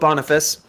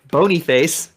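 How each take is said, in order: First: The name is pronounced in a plain, ordinary way. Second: The name is pronounced in an exaggerated, silly way. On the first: The speaker calls it right. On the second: The speaker calls it wrong.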